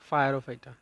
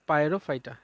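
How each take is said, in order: First: The first part is said as 'fire-o'. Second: The first part is said as 'pyro'. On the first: The sound recalls fire as a memory aid. "কিন্তু উচ্চারণ করার সময় কি করব" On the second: This is how the word is spelled. "বানানটা লেখার সময় ঠিক এইরকমই আমরা লিখবো"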